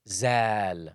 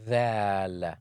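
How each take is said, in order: First: The first consonant sounds like z. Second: The first consonant sounds like th. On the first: The speaker calls it wrong. "if I wanted to say thal and keep the tongue inside, it will come out as zal" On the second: The speaker calls it right. "it should be thal with the tongue sticking out"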